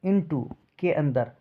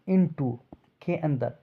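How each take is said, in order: Both takes have the same delivery.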